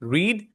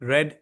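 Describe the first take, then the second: First: The vowel is long, like 'reed'. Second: The vowel is short, like 'red'. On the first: It is the present form. "इसमें spelling तो same होती है पर इसका pronunciation change हो जाता है" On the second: It is the past form. "हम इसको पढ़ते हैं रेड"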